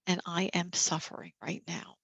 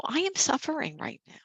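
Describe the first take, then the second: First: Softer, dropping away gently; softer self-talk. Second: Higher pitch, leaning on the word "am"; "I am suffering" said with weight on "am", a higher voice; emphatic self-talk. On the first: Caregiver softly admitting suffering to the group, gently quieter. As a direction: let "and I am suffering right now" fall quiet. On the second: Caregiver voicing self-compassion to the group, emphatic on "am". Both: Shown as a demonstration. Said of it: "Just taking a moment and saying".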